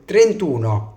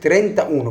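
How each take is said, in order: First: The parts are joined, dropping the middle vowel. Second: Both parts are said separately, keeping the vowel. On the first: The speaker calls it right. "بقول ترنتونا" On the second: The speaker calls it wrong. "مش بقول ترنتا اونو"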